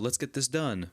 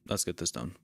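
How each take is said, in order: First: It is said in a cheery, energetic tone. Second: It is said in a flat, depressed tone. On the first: The person is eager to do the work. "one person seems cheery, energetic" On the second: The person does not really care. "someone acting depressed"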